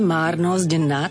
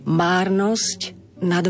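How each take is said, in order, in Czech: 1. Konec slova márnosť je znělý, jako zď. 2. Konec slova márnosť zůstává neznělý, jako sť. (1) "musíme spodobovať, teda zmeniť výslovnosť toho koncového st na zd" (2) "Vtedy to bude také patetickejšie"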